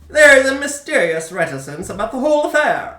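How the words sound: It is read in a 1940s newsreel-style voice.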